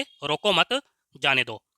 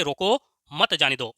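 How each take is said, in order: First: Group "रोको मत" together, pause, then drop down on "जाने दो"; pause after मत. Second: "रोको" on its own, then "मत जाने दो" run together; pause after रोको. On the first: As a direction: put the comma after मत. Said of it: "रोको मत के बाद". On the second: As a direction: put the comma after रोको. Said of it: "रोको" शब्द के बाद विराम चिन्ह". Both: Shown as a demonstration.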